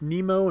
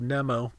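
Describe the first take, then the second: First: The name is said with English-style vowels. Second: The name is said with Japanese-style vowels. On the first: The speaker calls it right. "I should be going with Nemo" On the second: The speaker calls it wrong. "instead of Nemo"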